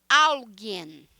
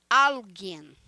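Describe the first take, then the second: No difference in how they are said.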